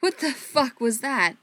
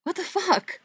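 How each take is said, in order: First: Slow, louder, higher demand; disbelieving demand. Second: Much higher, louder disbelieving cry; high disbelief. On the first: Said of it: "Andy demanded". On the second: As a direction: voice jumps up in disbelief. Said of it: "his voice high and more than a little disbelieving". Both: Acted.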